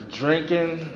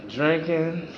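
Both takes have the same delivery.

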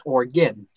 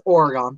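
First: "Oregon" as OR-ih-gin; standard state pronunciation. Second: "Oregon" as OR-uh-gon; family pronunciation. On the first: Conceding how people say the state, standard pronunciation. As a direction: reduce the end of "Oregon" to a short unstressed gin. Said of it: "People pronounce the state as". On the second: Explaining how the family says their street, family pronunciation. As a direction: say "Oregon" in three syllables, ending in a full GON. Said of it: "My family has always pronounced". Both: Shown as a demonstration.

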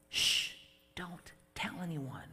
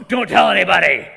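First: Very soft hushing; hushed. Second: Very loud angry command; furious shout. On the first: Jesus hushes the healed man, very softly. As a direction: keep it secret, softly. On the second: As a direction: bark it out indignantly. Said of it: "That's Jesus going". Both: Pretend.

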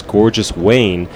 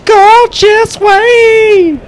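First: "Gorgeous Wayne" said slowly, as the song slurs it; slow slurred "Gorgeous Wayne" mishearing; misheard lyric. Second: Sung, "Gorgeous Wayne" belted very high and long; sung, wail "Gorgeous Wayne" like a rock singer; sung, belted rock shout. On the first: Shown as a demonstration. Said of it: "which is his version of Frankenstein". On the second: Pretend. Belting the misheard lyric.

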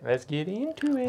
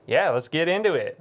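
First: Hushed whisper. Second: Said in the usual way. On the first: Shown as a demonstration. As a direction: whisper it conspiratorially.

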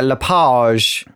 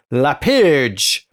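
First: "Lapage" with a long open "pahzh" ending; French pronunciation. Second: "Lapage" with a short "pidge"-like second syllable; first pronunciation attempt. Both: Shown as a demonstration. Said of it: "it might be pronounced".

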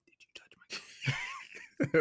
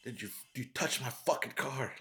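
First: Menacing whisper up close; quoting a rich kid's creepy whispered threat. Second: Lightly voiced rich kid threatening; menacing quote. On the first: Retold or imitated. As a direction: breathe it right in his face. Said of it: "gets really close to him and whispers". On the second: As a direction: lean in and menace. Quoting the rich kid's threat.

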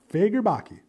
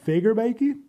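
First: Committing to the surname after the questioning try; settled pronunciation. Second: First go at the actor's surname, said like a question; unsure first try. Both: Shown as a demonstration. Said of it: "hoping I'm saying this right".

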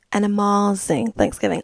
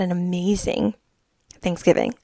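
First: "amazing" said as "ah-MAH-zing"; "amazing" with an affected AH in place of AY; playful pronunciation. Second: Said in the usual way. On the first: Real, not acted. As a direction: stretch the middle of "amazing" into a broad "mah". Playful repeat with altered vowel.

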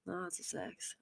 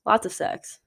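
First: Breathy secretive whisper of Lots of sex. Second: Said in the usual way. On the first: Real, not acted. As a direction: drop into a naughty whisper. Repeats phrase then whispers.

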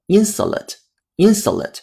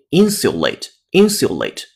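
First: American "insulate" with a reduced "suh" middle, said slowly; American pronunciation. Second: Slow, crisp British "insulate" with "syu" and full "ate"; British pronunciation. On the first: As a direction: slowly model the American "IN-suh-late", twice. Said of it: "这是美音". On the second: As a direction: slowly model the British "IN-syu-late", twice. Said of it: "英音insulate". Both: Shown as a demonstration.

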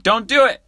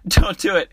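First: High, loud don't do it; emphatic warning. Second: Laughing warning. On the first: Telling listeners never to stop there, loud and high. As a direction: warn them hard, voice jumping up. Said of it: "warning viewers emphatically". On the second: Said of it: "laughing repeat of warning". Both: Real, not acted.

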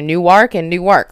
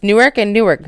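First: Newark in two full syllables, ending in a clear "ark". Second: Newark as one quick word, ending in a weak "erk"; Newark run together. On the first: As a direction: say both Newark as new ARK, with an open "ar". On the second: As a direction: say both Newark as NOO-erk, second syllable swallowed. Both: Shown as a demonstration. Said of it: "why do you gotta say it differently".

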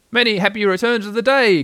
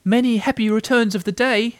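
First: Raised, higher-pitched cheery greeting; calling out. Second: High, eager little voice; small creature's high-pitched birthday greeting; Piglet. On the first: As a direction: call it out as from across a river. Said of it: "called out Pooh". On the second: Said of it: "said Piglet again". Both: A narrator's reading.

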